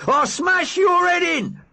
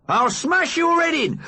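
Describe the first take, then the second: First: Slow, high, roared threat; furious shout. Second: Furious threat. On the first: Big Mac roaring at the driver, furious slow shout. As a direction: bellow it out like a maniac. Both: Acted. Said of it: "Big Mac attacks".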